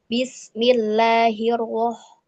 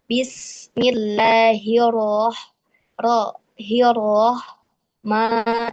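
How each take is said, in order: First: Bismillahirroh- said slowly with lips pushed forward on ro; rounded lips on ro. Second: Bismillahirroh- said slowly, lips kept still on ro; correct ro without pouting. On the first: Teacher shows the wrong pouting ro in bismillah. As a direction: push the lips out on the ro. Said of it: "itu tidak boleh ikut maju si bibirnya". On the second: Teacher shows the correct ro in bismillah. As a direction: keep the lips back on the ro. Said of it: "seperti itu". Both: Shown as a demonstration.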